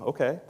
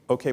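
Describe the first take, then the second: First: It is said in a doubtful, questioning way. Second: It is said in a confident, approving way. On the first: The speaker is unsure or wondering about something. "It can be kind of a question mark" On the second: The speaker approves of or acknowledges something. "Or it can be an affirmation"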